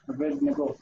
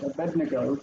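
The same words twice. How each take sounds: First: Abednego split as Aved Nego; two words. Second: Abednego as one word, uh-BED-nuh-go; anglicised Abednego with a "b", no break; run together. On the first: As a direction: model Abednego with a "v", as two names. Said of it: "it's actually two". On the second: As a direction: say Abednego the familiar English way. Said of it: "we always run them together as one word". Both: Shown as a demonstration.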